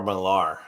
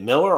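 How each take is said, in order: First: Millar stressed on the second syllable, muh-LAR; pronounced Millar. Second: Miller stressed on the first syllable, MIL-er; pronounced Miller. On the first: Co-host offering the other reading, Millar with stress at the end. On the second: Co-host asking how Miller is said, stress up front. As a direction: say Miller like the word for a grain grinder. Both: Shown as a demonstration. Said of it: "Is it Miller or Millar".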